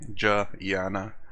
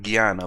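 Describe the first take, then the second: First: The word begins with a J sound. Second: The word begins with a hard G sound. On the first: "like a silent N and a J" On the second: "like a G sound"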